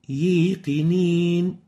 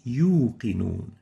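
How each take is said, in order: First: The long vowel is mixed with an ee sound. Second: The long vowel is a pure oo sound. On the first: The speaker calls it wrong. "mixing the vowel sound with a ya sound ... This is wrong" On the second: The speaker calls it right. "It's supposed to be yuqinun"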